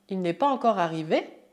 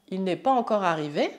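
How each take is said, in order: No difference in how they are said.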